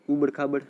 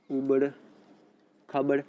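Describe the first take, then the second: First: Said in the usual way. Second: उबड़, a long pause, then खाबड़; halting, as if writing out उबड़ खाबड़; dictation pace. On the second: Real, not acted. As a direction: dictate उबड़ खाबड़ one word at a time. Teacher repeats term while writing it.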